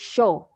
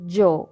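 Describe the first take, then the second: First: It begins with an English sh sound. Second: It begins with an English j sound. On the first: It sounds Argentine or Uruguayan. "they use uh, sh like uh, like sh in English" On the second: It sounds Colombian. "in Colombia, the the Y, in most of the cases, we um, pronounce it like a J"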